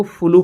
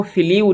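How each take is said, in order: First: फ्लू read as floo, rhyming with blue; correct reading of flew. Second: फ्लीव read as fleev, with a long ee and a v at the end; the mistaken fleev reading of flew; wrong reading of flew. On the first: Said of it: "इसको फ्लू पढ़ेंगे". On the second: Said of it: "इसको फ्लीव नहीं पढ़ेंगे". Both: Shown as a demonstration.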